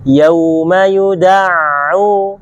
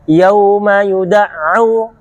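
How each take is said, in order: First: The ain flows briefly before being pressed. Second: The ain is pressed abruptly with no flow. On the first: The speaker calls it right. "harusnya tetap ada yang mengalir sedikit" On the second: The speaker calls it wrong. "Kebanyakan orang langsung masuk syiddah"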